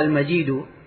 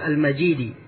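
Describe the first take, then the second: First: The word ends with a final u vowel. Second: The word ends with a final i vowel. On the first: It is another name of God. "Kebanyakan qurra membaca" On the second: It describes the Throne as vast. "Kalau dibaca Al-Hamzah dan Al-Kisai"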